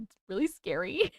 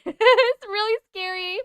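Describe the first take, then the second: First: Said in the usual way. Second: High, drawn-out scared squeal; mock scared. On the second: Streamer tells viewers about creepy footage, mock scared squeal. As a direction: stretch it high in playful fright.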